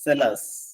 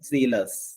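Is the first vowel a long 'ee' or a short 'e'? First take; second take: short e; long ee. First: The first vowel is a short 'e' sound. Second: The first vowel is a long 'ee' sound. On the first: The speaker calls it right. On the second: The speaker calls it wrong.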